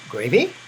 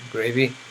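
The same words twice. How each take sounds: First: The pitch rises on the word. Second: The pitch falls on the word. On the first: "with a smile. All right, upward intonation" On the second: "they would do it a downward intonation"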